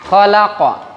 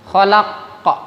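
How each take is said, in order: First: The final qaf bounces lightly and naturally. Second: The final qaf is held and forced hard. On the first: The speaker calls it right. "otomatis ya" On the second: The speaker calls it wrong. "Nah itu keliru"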